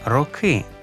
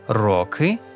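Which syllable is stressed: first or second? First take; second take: first; second. First: The stress is on the first syllable. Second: The stress is on the second syllable. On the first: "і на корені" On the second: "наголос на закінченні"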